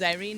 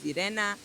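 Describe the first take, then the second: First: The name is pronounced the English way. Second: The name is pronounced the Polish way. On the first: "English, my name is Irene" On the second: "In Polish, my name is Irena"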